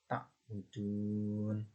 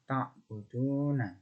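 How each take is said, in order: First: The word ends on a bare consonant. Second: The word ends with a final short vowel. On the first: The reading stops at this word. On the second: The reading continues without stopping.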